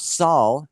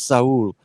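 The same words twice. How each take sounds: First: The name is said the plain English way. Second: The name is said with a Spanish accent. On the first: The speaker calls it wrong. "I thought it was Saul, S A U L" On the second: The speaker calls it right. "speaking with an accent there, but uh, it is Saul"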